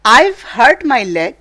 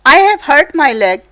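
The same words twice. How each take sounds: First: "I've" said as one syllable, "aiv", with a light v; contracted I've. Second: "I have" said as two full words, not contracted; full form I have. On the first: Teacher showing students the contraction, one-syllable "I've". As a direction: glide "I've" into a single short syllable. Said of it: "ये word है I've". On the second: Teacher reading the story to students, "I have" in full. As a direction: read out "I have" in full, each word clear. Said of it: "लेकिन है ये I have". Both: Shown as a demonstration.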